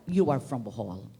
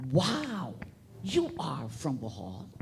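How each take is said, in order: First: Said in the usual way. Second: Quoted wow, then asking with a lift on Bohol; impressed question. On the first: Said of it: "when you would say that". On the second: Retold or imitated. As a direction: retell an interviewer's surprised question. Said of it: "And he asked me".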